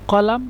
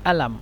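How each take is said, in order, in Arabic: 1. تبدأ الكلمة بصوت q عميق. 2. تبدأ الكلمة بهمزة.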